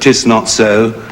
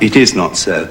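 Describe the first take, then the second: First: It is shortened to one syllable. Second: It is said as two full words.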